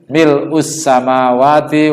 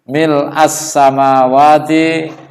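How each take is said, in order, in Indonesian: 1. Kata pertama berakhir dengan vokal u. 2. Kata pertama berakhir dengan vokal a. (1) "Tapi kalau misalnya dibaca mil'u, itu secara bahasa boleh" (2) "di buku kitab hadis itu mil'a"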